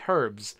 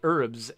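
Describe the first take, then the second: First: The word has a British pronunciation. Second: The word has an American pronunciation. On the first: "English folks say herbs" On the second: "Americans say herbs"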